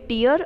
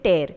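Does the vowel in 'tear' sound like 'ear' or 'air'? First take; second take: ear; air. First: The vowel sounds like the one in 'ear'. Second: The vowel sounds like the one in 'air'. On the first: It means a drop from the eye. "પેલું જે છે એ ટીયર છે એટલે આંસુ" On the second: It means to rip. "બીજું જે છે ટેર એટલે ફાટવું અથવા ફાડવું"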